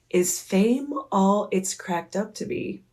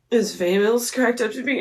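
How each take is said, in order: First: Measured, distinct repeat of a question; repeated, clearer question. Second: Quick, run-together question, rising at the end; hurried question to an idol; rushed first ask. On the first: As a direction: ask it carefully for someone who missed it. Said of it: "And I was like". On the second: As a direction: blurt the question out in one breath. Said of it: "he was like, "What?". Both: Retold or imitated.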